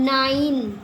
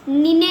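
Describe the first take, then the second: First: The first vowel sounds like 'eye', final e silent. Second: The first vowel sounds like 'ee', final e voiced. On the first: The speaker calls it right. "इसको क्या पढ़ रहे हैं, नाइन" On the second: The speaker calls it wrong. "इसको हम नीने नहीं पढ़ रहे"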